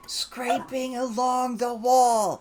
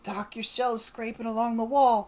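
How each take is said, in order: First: Slow, high, loud repeat; drawn-out shouted correction; emphatic repeat. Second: High, loud warning; raised-voice alert; urgent warning. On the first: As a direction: spell it out loudly for someone who missed it. Repeating louder for Doc who missed it. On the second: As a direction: call it out to a noisy companion. Warning noisy Doc across the party. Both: Acted.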